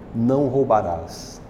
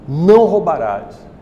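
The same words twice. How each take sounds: First: It sounds like a gentle, reassuring promise. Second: It sounds like a harsh, stern order.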